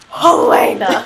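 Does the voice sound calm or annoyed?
annoyed. It sounds clearly annoyed.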